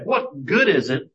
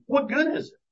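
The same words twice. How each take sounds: First: Said in the usual way. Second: High-pitched rising challenge; rising up sharply as a challenge; challenging question. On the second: Retold or imitated. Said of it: "he starts off with".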